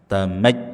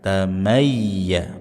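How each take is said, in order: First: The ya sound is cut off abruptly. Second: The ya sound is held at moderate length. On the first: The speaker calls it wrong. "jangan berlebihan sampai memotong huruf ya" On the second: The speaker calls it right.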